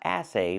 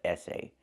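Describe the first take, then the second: First: The first vowel is the open vowel of cat. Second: The first vowel is the closer vowel of red. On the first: The speaker calls it wrong. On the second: The speaker calls it right. "but essay. We want the sound eh, like in red and ten"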